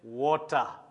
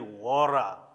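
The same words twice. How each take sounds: First: The word is said with a British accent. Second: The word is said with an American accent. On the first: This is how the speaker's own community says it. "our English is British English. We say water" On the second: This is how the speaker's own community does not say it. "We don't say water"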